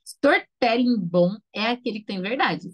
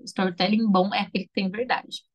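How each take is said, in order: First: Storytelling bom é aquele que tem verdade said slowly, each word weighed; slow emphatic maxim. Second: Said in the usual way. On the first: Shown as a demonstration. Teacher to students, stating the key rule slowly. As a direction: lay the maxim down slowly and firmly. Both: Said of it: "Foi o que eu falei lá no começo".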